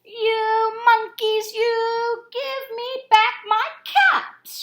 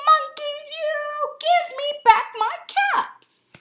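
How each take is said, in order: First: High, loud, slow sing-song scolding; angry peddler. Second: Higher, louder, slow sing-song scolding; angrier peddler. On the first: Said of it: "The peddler said". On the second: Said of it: "This made the peddler angry". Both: A narrator's reading.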